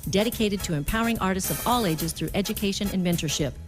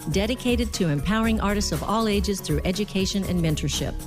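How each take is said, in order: The two takes are said the same way.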